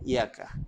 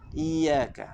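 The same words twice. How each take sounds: First: The y sound is single and short. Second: The y sound is doubled and held. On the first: Sunlight. The speaker calls it wrong. "bukan; kalau baca iyyaka tidak ada tasydid sabdu" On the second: To you, O God. The speaker calls it right. "itu kan sabdu. Iyaka. Baca betul-betul"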